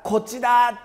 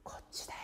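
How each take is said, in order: First: Louder call from a distance; God calling from afar; calling from far. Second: Whispered from right beside; whispering close like a guide. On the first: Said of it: "神様は遠くから". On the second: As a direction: murmur it gently close by. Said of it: "そば近くで". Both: Shown as a demonstration.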